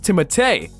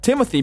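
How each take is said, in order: First: The name is said with French pronunciation. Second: The name is said with English pronunciation. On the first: This is the original, proper form of the name. "The proper pronunciation of his French name" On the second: This form sounds less pretentious. "the English version"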